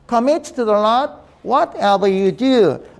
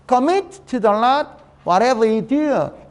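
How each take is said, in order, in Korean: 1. 문장을 고르게 읽어요. 동사를 강조하지 않아요. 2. 동사를 강하게 강세를 줘서 읽어요. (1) "그냥 쭉 읽어버린 거다" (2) "동사를 강하게 읽어줘야 돼요"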